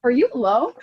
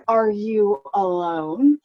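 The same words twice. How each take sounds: First: "you" leaned on in a rising question; snide stress on you. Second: Slow, drawn-out condescending question; waiter's snide tone. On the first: Imitating the waiter's pointed "you" at her booth. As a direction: hit "you" as if pitying her. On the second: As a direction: let the question hang, sneering. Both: Retold or imitated. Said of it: "It was in his tone".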